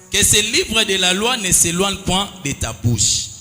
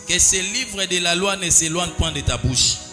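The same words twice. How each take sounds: The two takes are said the same way.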